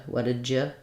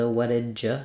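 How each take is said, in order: The two takes are said the same way.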